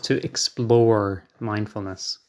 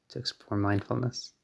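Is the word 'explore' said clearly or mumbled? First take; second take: clear; mumbled. First: The word explore is crisply and clearly articulated. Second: The word explore is slurred and unclear. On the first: The speaker calls it right. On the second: The speaker calls it wrong.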